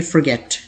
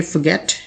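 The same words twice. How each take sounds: First: American forget with the r sounded; American pronunciation. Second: British forget with no r sound; British pronunciation. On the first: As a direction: forget in an American accent, r kept. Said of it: "American English में आप इसे कहेंगे". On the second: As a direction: forget in a British accent, r dropped. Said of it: "British English में आप इसे कहेंगे". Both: Shown as a demonstration.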